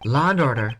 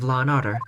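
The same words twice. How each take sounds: First: It is said in an imitated American accent. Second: It is said in the speaker's own British accent.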